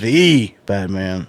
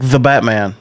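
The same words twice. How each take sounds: First: The stress falls on the word the. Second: The stress falls on the word Batman. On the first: The speaker calls it wrong. "You're putting the inflection on the E of the" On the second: The speaker calls it right. "it's like the Batman"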